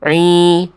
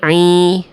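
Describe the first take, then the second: No difference in how they are said.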